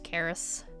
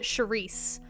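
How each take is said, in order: First: The name begins with a K sound. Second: The name begins with a Sh sound. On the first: The speaker calls it right. "it's just" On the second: The speaker calls it wrong. "everyone pronounces it"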